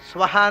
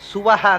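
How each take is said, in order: First: The first consonants are joined into one syllable. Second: The first consonants are split by a vowel. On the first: The speaker calls it wrong. "ಒಂದೇ ಉಸಿರಿ ಹೇಳಬಾರ್ದು" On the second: The speaker calls it right. "ಅದನ್ನು ಬಿಡಿಸಿ"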